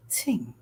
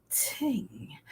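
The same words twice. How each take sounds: First: Said in the usual way. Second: "ting." whispered with a soft breathy t; softly aspirated ting. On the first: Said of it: "Softly aspirate". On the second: Shown as a demonstration. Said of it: "Softly aspirate, t-, and add ing".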